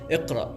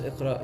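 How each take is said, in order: First: It is said harshly, like a firm command. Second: It is said softly, like a polite request. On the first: It is a firm command to read. "He says in a stern voice" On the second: It is a polite request to read. "not just "Iqra," you know, please read"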